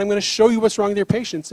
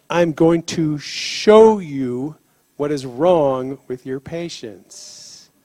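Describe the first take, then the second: First: Said in the usual way. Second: Slow, solemn lightly voiced God. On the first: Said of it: "He said". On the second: God tells the paramedic he'll show him, slowly and solemnly. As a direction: lay each word down slowly like a promise. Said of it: "he said".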